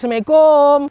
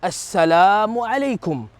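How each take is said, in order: First: The greeting is clipped and slurred together. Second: The greeting is said carefully with every syllable. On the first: The speaker calls it wrong. "jangan guna lagi sebutan" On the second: The speaker calls it right. "Sebut elok-elok"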